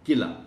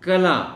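First: The first syllable has a plain k-i sound. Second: The first syllable lacks a plain k-i sound. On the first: The speaker calls it wrong. "किला काफ के नीचे ज़ेर के साथ" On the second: The speaker calls it right. "ये लफ्ज़ ख़ास है मोहतरम टीचर तलफ़ुज़ के मामले में"

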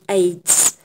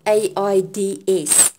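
First: It is spoken as a single word. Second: Each letter is spoken separately. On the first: The speaker calls it right. "I use it as a word" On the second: The speaker calls it wrong. "not AIDS"

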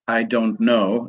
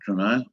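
First: Every word is said fully and separately. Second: The words are squeezed into one short word. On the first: "people don't actually say" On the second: "they say"

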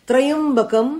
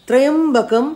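Both takes have the same delivery.

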